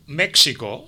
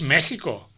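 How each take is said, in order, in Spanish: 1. La x se pronuncia como un sonido ks. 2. La x se pronuncia como una h gutural. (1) "per mala interpretació d'aquesta X, hi ha molta gent que diu México" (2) "és México"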